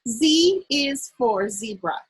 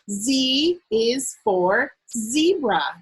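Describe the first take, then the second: First: It is read at a faster pace. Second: It is read at a slower pace.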